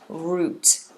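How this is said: It is said with a British pronunciation. "British English"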